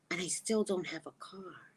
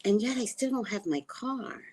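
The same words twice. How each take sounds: First: Whisper. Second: Said in the usual way. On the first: Real, not acted. Woman on an island without a car, whispered. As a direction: whisper it as if to yourself. Whispered repeat of her complaint.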